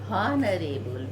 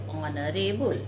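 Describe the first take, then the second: First: The word begins with an h sound. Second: The word begins with a vowel sound. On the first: The speaker calls it wrong. "We never pronounce" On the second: The speaker calls it right. "again H is silent here"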